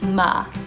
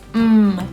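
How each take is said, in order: First: The consonant is followed by an extra uh vowel. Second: The consonant is held with no vowel after it. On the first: The speaker calls it wrong. "not ma" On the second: The speaker calls it right. "M is mm"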